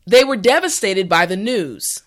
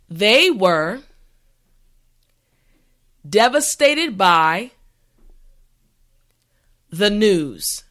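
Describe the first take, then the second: First: The sentence is said at a normal pace. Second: The sentence is said slowly and carefully. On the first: "the last time at a regular pace" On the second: "this time repeat after me"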